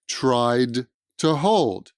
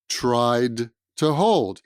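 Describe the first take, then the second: First: The words are separated and sound choppy. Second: The same.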